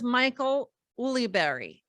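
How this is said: The surname is said with English pronunciation. This is how the name is known in the States. The speaker calls it wrong. "in the States, he's known as"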